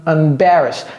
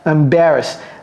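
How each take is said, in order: Both takes have the same delivery.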